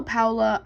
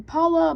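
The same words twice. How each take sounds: First: First vowel of Paula as in "cow"; Paula as POW-la. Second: First vowel of Paula as in "father"; Paula as PAH-la. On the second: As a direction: say Paula with an open "ah" in the first syllable. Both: Shown as a demonstration. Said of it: "I don't know how you pronounce it".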